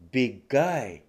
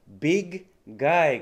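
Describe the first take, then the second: First: The two g sounds merge into one. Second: Both g sounds are said separately.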